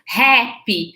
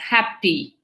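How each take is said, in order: First: The first vowel is said wide open. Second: The first vowel is said more closed. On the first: The speaker calls it wrong. "muita gente tem umas pronúncias happy" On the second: The speaker calls it right. "ela é mais fechada"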